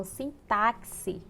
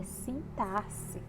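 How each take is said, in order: First: Sintaxe with X said as "ks"; common mispronunciation. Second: Sintaxe with X as a plain S, drawn out; correct pronunciation. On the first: Teacher showing students how many people say sintaxe, mispronounced with a KS. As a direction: say sintaxe as "sin-TAK-si". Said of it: "muitas pessoas falam sintaxe". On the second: Teacher correcting the error, sintaxe said slowly with an S sound. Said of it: "quando na verdade é sintaxe". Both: Shown as a demonstration.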